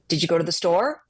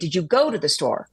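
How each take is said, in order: First: The word store carries strong emphasis. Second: The word store carries no special emphasis. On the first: The speaker calls it wrong. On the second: The speaker calls it right.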